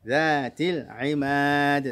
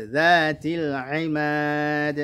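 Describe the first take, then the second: Both takes have the same delivery.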